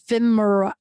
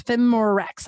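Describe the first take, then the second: First: Femira said FEM-ih-ra, no rex at the end; corrected brand name. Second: Femirex said as FEM-ih-rex, ending in rex; mispronounced brand name. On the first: Host correcting the sponsor name to Femira for listeners. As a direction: settle on Femira after spelling it out. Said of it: "I'll spell it for you". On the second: Host naming her first sponsor, saying Femirex with a rex ending. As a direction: stumble over the name, landing on Femirex. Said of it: "I'm gonna mispronounce it". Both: Shown as a demonstration.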